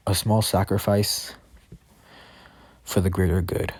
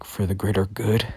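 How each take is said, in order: First: Said in the usual way. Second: Mildly indignant echo, rising as a question; mad. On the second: Acted. Deku echoes Overhaul's excuse for killing, mildly mad. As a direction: throw it back in understated, offended disbelief. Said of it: "Deku gets mad by that".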